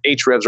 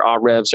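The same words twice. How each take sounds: First: "Ahrefs" said as AITCH-refs; alternative pronunciation. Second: "Ahrefs" said as AH-refs; alternative pronunciation. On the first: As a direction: say "Ahrefs" starting with the letter name H. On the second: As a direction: say "Ahrefs" with an open "ah" and no H sound. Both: Shown as a demonstration. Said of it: "however you say it".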